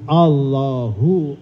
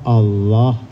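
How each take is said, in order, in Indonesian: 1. Kata itu dipanjangkan dan ditekankan. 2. Kata itu diucapkan pendek, tidak dipanjangkan.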